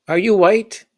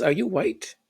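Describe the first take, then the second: First: Higher, louder, rising repeat; louder incredulous dad. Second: Higher, rising disbelieving question; incredulous dad. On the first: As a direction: hammer the question home in disbelief. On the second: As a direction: ask it like you can't believe it. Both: Retold or imitated.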